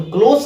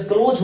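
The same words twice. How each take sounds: First: क्लोज ending in a hissed s, as in near; close with s sound. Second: क्लोज ending in a buzzing z, as in shut; close with z sound. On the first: Teacher showing students the adjective क्लोज, ending on s. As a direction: say क्लोज with a sharp unvoiced s at the end. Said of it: "C L O S E को अगर हम लोग स पढ़ते हैं क्लोज". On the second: Teacher showing students the verb क्लोज, ending on z. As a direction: say क्लोज with a voiced z at the end. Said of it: "यहाँ पर मैंने ज बोला क्लोज". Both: Shown as a demonstration.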